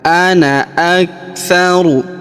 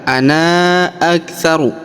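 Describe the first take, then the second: First: The final vowel of ana is kept short. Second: The final vowel of ana is drawn out long. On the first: The speaker calls it right. "jadi kita tidak panjangkan dua harokat ya" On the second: The speaker calls it wrong. "Kita tidak baca ana aktsaru"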